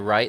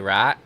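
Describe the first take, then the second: First: The vowel is a full 'eye' glide. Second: The vowel is flattened, sounding like 'rat'. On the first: This is how people elsewhere say it. "they don't say right" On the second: This is how people from Arkansas say it. "they say right. R A T"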